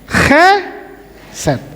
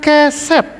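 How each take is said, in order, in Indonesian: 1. Diawali dengan bunyi tenggorokan yang serak. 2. Diawali dengan bunyi k yang keras. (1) "Harus chesed" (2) "bukan keset"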